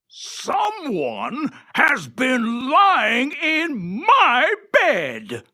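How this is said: It is said in a big, gruff voice.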